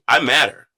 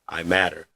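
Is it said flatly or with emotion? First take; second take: with emotion; flatly. First: It is said with strong feeling. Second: It is said flatly, without feeling.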